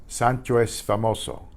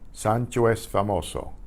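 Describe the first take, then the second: Both takes have the same delivery.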